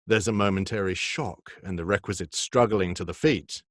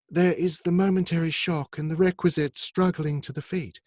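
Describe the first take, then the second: First: It is read in his normal lower voice. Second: It is read in a higher, softened female voice.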